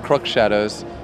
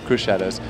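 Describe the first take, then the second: First: The first word ends with an audible x sound. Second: The first word ends without an x sound. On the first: This is how most other people say it. "most people pronounce it Crook Shadows" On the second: This is how the band itself says it. "we pronounce it Cruise Shadows. ... it's sort of a, a silent X"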